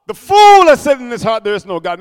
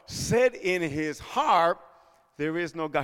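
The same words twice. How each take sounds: First: Loud proclamation. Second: Very slow and much softer; slow hushed verse. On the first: Pastor to congregation, loud proclaimed verse. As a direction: blast the verse out. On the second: Pastor quoting the fool, very slow and much softer. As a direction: let the verse sink in quietly. Slow quiet scripture quote. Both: Acted.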